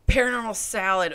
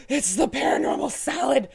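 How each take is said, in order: First: Said in the usual way. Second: Spooky announcer. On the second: Pretend.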